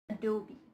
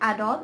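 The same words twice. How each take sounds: First: The word ends with an 'ee' sound. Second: The word ends without an 'ee' sound. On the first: The speaker calls it right. "it's Adobe" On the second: The speaker calls it wrong. "It's not Adobe"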